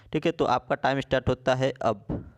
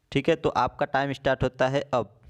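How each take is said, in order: The two takes are said the same way.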